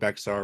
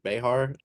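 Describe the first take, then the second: First: The middle consonant is a ks sound. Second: The middle consonant is an h sound. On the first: The speaker calls it wrong. "it's not pronounced Bexar" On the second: The speaker calls it right. "It's pronounced like Behar"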